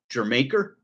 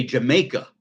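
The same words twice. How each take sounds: First: "Jamaica" squashed into "Jer-maker", as a question; imitated Cockney pronunciation. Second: Said in the usual way. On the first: Vlogger retells the old man's joke, imitated Cockney pronunciation. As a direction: ask "Jamaica" so it sounds like "d'you make her". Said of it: "like in a thick Cockney accent". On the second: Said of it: "As to say Jamaica".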